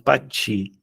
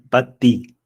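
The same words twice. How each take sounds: First: The second syllable has a ch sound. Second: The second syllable has a plain t sound. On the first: The speaker calls it wrong. "não pati" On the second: The speaker calls it right.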